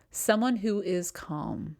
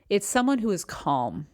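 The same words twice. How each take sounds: First: Slow, settled and steady; slow right down and let "calm" rest. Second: Said in the usual way. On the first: Shown as a demonstration. Coach modelling the person others gravitate towards, calm and slow.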